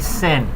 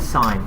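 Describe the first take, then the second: First: The vowel is short, rhyming with pin. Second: The vowel is long, rhyming with line. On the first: The speaker calls it wrong. "But we don't say sin" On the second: The speaker calls it right. "the button or trig function called sine"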